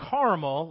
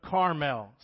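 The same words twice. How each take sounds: First: "caramel" said like the candy, loud; candy pronunciation. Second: "Carmel" as spelt C-A-R-M-E-L, loud; place-name pronunciation. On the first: Preacher rules out the candy word, "caramel" said as the sweet. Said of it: "like the candy". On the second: Preacher corrects the mountain's name, "Carmel" said as spelt. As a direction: say "Carmel" as the mountain, not the candy. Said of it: "C A R M E L". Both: Shown as a demonstration.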